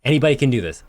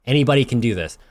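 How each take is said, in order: First: Full infomercial pitch. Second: Light salesman pitch; infomercial pitch. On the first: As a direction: push it like a late-night ad. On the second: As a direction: sell it like a TV ad. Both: Acted. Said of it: "I sound like an infomercial".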